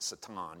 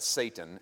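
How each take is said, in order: First: The name is said the Hebrew way. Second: The name is said the usual English way. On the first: The speaker calls it wrong. "I don't recommend you go out and start pronouncing it satan" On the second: The speaker calls it right. "We pronounce that Satan"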